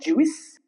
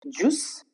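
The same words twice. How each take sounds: First: The I is sounded after the U. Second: The I is silent, with a long U. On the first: The speaker calls it wrong. "not juice. That's wrong" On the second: The speaker calls it right. "the letter I goes silent"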